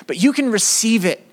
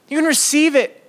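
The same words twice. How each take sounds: First: Said in the usual way. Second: "receive" lifted high and pressed; "receive" said higher and firmer; stress on receive. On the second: Shown as a demonstration. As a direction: repeat it, leaning hard on "receive".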